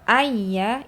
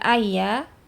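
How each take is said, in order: First: The doubled y sound is pressed with emphasis. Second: The doubled y sound is said lightly. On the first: The doubling of the letter is clearly heard. The speaker calls it right. "ayya itu pasti terdengar kalau huruf ya itu bertasydid" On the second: The doubling of the letter cannot be heard. The speaker calls it wrong. "kalau cuman ayya, ya tidak terdengar huruf ya itu tasydid atau tidak"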